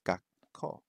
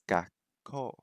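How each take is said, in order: First: The word ends in a held 'kko' sound. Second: The same.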